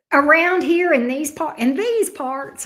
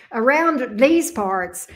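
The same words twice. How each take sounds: First: Southern accent. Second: Slow, exaggerated Southern drawl on "Around these parts". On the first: Real, not acted. Streamer chatting to viewers about local food, natural Southern accent. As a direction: let the Southern accent slip out on its own. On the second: Shown as a demonstration. Streamer playing up her accent for viewers, hammed-up Southern drawl. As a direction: lean hard into the Southern accent and stretch each word. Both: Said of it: "I sound like I'm so Southern".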